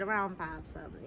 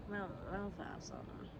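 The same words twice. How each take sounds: First: Drowsy mumble; half-asleep, slurred; sleepy voice. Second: Very soft half-asleep mumble; barely awake, slurred and soft; sleepy voice. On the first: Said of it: "in my sleepy ass voice". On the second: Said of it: "Like, sleepy as hell". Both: Retold or imitated.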